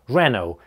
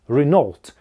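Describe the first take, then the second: First: The stress is on the first syllable. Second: The stress is on the second syllable. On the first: "Ударение на первый слог" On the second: "То есть уже ударная вторая"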